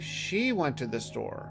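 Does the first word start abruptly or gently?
gently. The first word starts softly and gently.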